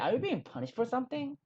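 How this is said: It is said with an irritated, angry tone. The speaker calls it right. "빡친 표정으로 한번 손가락 이렇게 하면서 같이 따라해 볼까요?"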